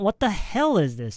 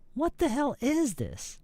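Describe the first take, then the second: First: The stress falls on the word what. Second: The stress falls on the word is. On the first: The speaker calls it wrong. "Not what the hell is this? No, not not the what" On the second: The speaker calls it right. "the stress should go on is or this"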